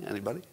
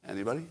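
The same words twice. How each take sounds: The two takes are said the same way.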